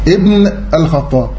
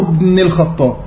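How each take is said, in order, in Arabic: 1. الكلمة تبدأ بهمزة واضحة. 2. الهمزة تُحذف، فتتصل الكلمة بالكلمة التي قبلها. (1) "انا نطقت الهمزه ولا لا؟ ابن اي تمام" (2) "في اثناء الوصل تسقط في النطق"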